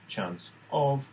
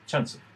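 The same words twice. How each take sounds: First: The two words are said separately. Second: The two words are linked together. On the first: The speaker calls it wrong. "So it's not chance of" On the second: The speaker calls it right. "but chance of ... they will, you know, naturally join"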